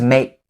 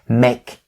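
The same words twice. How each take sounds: First: It is said quickly with the k stopped, unreleased. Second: It is said slowly with a clearly released k. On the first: "So the k sound is going to be perfectly stopped right there" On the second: "When you're saying the word make slowly, make sure that you enunciate the k sound like the way that I'm doing right here"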